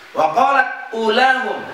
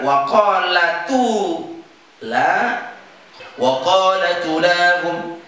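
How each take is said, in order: First: Said in the usual way. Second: Slow "qalatu", t carrying the u, held long; joined recitation. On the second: Shown as a demonstration. Teacher answers how to read it, slow and joined. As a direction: link it as "qalatu lahum", hamzah dropped. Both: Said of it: "Maka baca gimana?".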